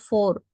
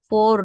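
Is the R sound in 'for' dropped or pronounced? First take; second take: pronounced; dropped. First: The R sound at the end is clearly pronounced. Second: The R sound at the end is dropped. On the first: The speaker calls it wrong. "not for" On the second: The speaker calls it right. "Don't pronounce R"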